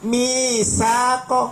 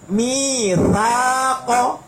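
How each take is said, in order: First: The middle consonant is a hissing s sound. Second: The middle consonant has no hissing sound. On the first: The speaker calls it wrong. "ingat bukan misaqo. Loh, salah lo ya" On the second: The speaker calls it right. "Tidak ada desis sama sekali"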